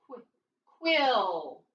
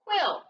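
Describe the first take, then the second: First: "Qu-, quill" with the opening sound alone, then drawn out. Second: Said in the usual way. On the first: Shown as a demonstration. Teacher decoding for pupils, "quill" sounded out slowly. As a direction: isolate the start of "quill", then stretch it. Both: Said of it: "What's the word?".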